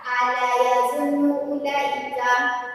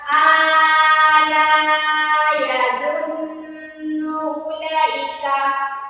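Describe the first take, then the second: First: The vowel in 'la' is cut short. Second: The vowel in 'la' is stretched overly long. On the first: "jangan dibaca" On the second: "atau dipanjang dibaca"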